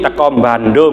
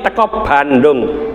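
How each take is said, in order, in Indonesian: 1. Bunyi m ditambahkan sebelum Bandung. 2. Tidak ada bunyi m yang ditambahkan sebelum Bandung. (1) "Bandung itu kan tidak ada M-nya Pak. ... ya itu dialek apa? Jawa" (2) "Dialek luar"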